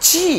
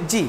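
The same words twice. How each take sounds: First: জি with a firm, strong j and long ee; forceful, drawn-out জি; hard G. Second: জি with a lax j and short ee; casual, unstressed জি; soft, weak G. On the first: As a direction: press hard into the j of জি. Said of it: "এটা শক্ত করে বলতে হবে". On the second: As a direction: say জি lightly, without pressure. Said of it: "জি বলে হবে না". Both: Shown as a demonstration.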